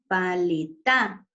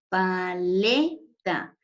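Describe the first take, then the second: First: The stress falls outside the middle syllable. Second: The stress falls on the middle syllable. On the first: The speaker calls it wrong. "No puede decir usted paleta" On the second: The speaker calls it right. "sino paleta. En este caso, la sílaba tónica sería le"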